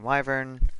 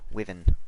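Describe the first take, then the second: First: The word is said with an American pronunciation. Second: The word is said with a British pronunciation. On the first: "American wyvern" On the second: "British wyvern"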